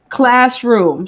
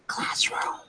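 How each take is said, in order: First: It is said louder. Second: It is said at normal, softer volume.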